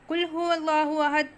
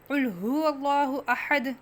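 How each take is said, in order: First: The first consonant is a light, thin k sound. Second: The first consonant is a deep, heavy q sound. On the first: Eat: He is God, the One. The speaker calls it wrong. "बारीक काफ पढ़ लेना" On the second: Say: He is God, the One. The speaker calls it right. "कह दो कि वो अल्लाह एक है"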